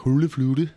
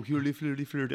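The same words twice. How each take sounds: First: Higher, louder mock Danish gibberish; hot-potato Danish. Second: Higher, lilting mock Norwegian gibberish; mock Norwegian accent. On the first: Showing why Danish is called hot potato, mock Danish babble. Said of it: "it sounds like they have a hot potato in their mouth". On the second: Explaining the Muppets chef to a co-host, mock Norwegian accent. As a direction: imitate the Muppets chef's Norwegian-sounding babble. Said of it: "that is more of the Norwegian accent".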